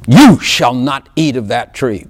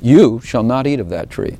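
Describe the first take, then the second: First: It is said firmly, as a stern order. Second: It is said gently, as a reassuring assurance. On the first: It is a prohibition that must be obeyed. "I know there's a law" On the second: It assures what the listener will become. "But I see it as this"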